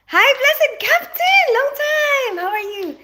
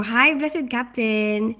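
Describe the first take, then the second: First: High, slow, drawn-out sing-song hello; sing-song greeting. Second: Said in the usual way. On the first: Real, not acted. Greeting a regular viewer in a high, slow sing-song.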